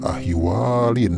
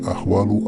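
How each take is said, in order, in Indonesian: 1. Kata ini berakhir dengan bunyi 'in'. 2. Kata ini berakhir dengan bunyi 'u'. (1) "tidak dibaca ahwalin ya" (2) "tetapi kita baca ahwalu"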